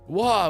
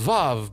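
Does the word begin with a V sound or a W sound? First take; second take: W; V. First: The word begins with a W sound. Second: The word begins with a V sound. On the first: "we don't have the V sound in certain languages, so we just call it a Wa" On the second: "which I think is pronounced Vav"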